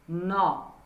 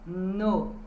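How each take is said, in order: First: The vowel is an open O sound. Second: The vowel is a closed O sound. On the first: "Se for o O aberto" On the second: "Se for com O fechado"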